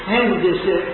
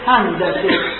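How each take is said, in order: First: The word is pronounced the Persian way. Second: The word is pronounced the Arabic way. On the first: "ما میگیم هندسه" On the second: "عرب میگوید هندسه"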